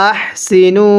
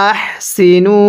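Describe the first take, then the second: No difference in how they are said.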